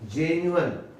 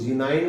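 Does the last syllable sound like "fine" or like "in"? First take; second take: in; fine. First: The last syllable is a short weak in. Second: The last syllable rhymes with fine. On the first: The speaker calls it right. "लेकिन है ये जेन्युअन" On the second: The speaker calls it wrong. "कोई इसको जिनाइन बोलते हैं"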